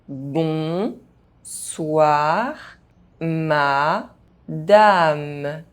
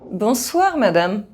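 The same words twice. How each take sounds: First: The phrase is spoken very slowly. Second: The phrase is spoken fast. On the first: "very slowly" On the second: "fast, as a native speaker would do"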